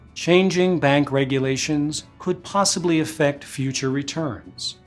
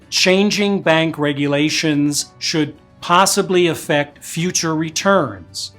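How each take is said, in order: First: The voiceless consonants are spoken lightly. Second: The voiceless consonants have exaggerated bursts of air. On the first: The speaker calls it right. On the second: The speaker calls it wrong.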